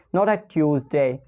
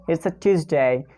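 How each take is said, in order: First: "Tuesday" said as tyooz-day with a y glide. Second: "Tuesday" said as tooz-day, no y glide; Tuesday without y. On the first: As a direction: put a y after the t in "Tuesday". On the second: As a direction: clean t then oo in "Tuesday". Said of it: "It's a Tuesday, not a Tuesday". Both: Shown as a demonstration.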